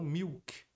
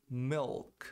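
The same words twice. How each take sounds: First: "milk" said like "miuk". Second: "milk" with a clear L; pronounced L. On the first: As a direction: replace the L in "milk" with W. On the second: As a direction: sound the L before K in "milk". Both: Shown as a demonstration. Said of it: "e não milk".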